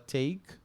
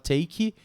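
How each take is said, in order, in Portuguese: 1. A palavra termina limpa, no som de K. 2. A palavra termina com um som de vogal acrescentado. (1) "ele termina com som de K" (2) "Você não fala take"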